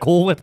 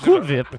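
First: It is said in a plain American accent. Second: It is said in a mock European accent.

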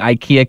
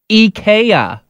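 First: The name is said the usual English way. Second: The name is said the Swedish way. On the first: The speaker calls it wrong. "we've been saying IKEA completely wrong" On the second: The speaker calls it right. "it's actually pronounced IKEA"

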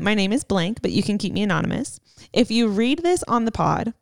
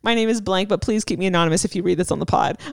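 First: There is a pause after anonymous. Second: It runs on without a pause after anonymous.

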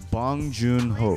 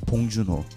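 First: The name is said with an English accent. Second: The name is said with a Korean accent.

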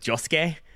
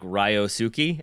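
First: The name begins with a J-like sound. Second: The name begins with a clear R sound. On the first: The speaker calls it right. "you actually pronounce it like Josuke" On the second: The speaker calls it wrong. "who was like Ryosuke"

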